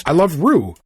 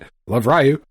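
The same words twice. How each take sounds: First: Rue said as one syllable "roo"; saying Rue. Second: Ryu said as "rye-oo"; saying Ryu. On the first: Host redoing the ad line, Ryu said as "roo". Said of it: "I said it both ways". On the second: Host reading an ad line, saying Ryu as "rye-oo". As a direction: pronounce Ryu like rye-you. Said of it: "Pick whichever edit you want. I said it both ways". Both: Shown as a demonstration.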